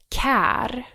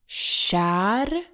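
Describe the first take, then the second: First: The word begins with a hard k sound. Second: The word begins with a soft sh sound. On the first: The speaker calls it wrong. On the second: The speaker calls it right.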